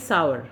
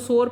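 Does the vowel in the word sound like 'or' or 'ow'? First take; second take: ow; or. First: The vowel sounds like 'ow' followed by 'er'. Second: The vowel sounds like 'or', one syllable. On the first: The speaker calls it right. "It is सावर" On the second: The speaker calls it wrong. "इसको सोर पढ़ते हैं वो गलत है"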